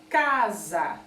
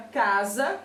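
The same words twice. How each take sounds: First: "casa" drawn out, first syllable ca stressed. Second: Said in the usual way. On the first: Shown as a demonstration. Teacher showing pupils the stronger syllable, stressed CA in "casa". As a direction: say "casa" deliberately, leaning hard on ca. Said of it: "é mais forte que a outra". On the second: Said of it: "a sílaba K vem realmente".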